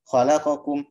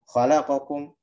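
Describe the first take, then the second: The two takes are said the same way.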